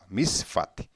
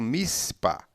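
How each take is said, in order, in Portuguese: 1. A consoante do meio é um som de F. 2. A consoante do meio é um som de P. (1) "misfat, na verdade" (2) "não mispa"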